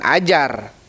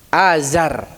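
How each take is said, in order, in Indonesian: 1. Konsonan tengahnya bunyi j. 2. Konsonan tengahnya bunyi z. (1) "bukan ajar" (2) "jangan dengan jim tapi dengan zai"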